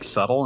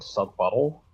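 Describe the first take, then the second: First: The b is silent, giving two syllables. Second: The b is sounded, giving three syllables. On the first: The speaker calls it right. "fucking up the pronunciation of subtle" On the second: The speaker calls it wrong. "saying subbuttle"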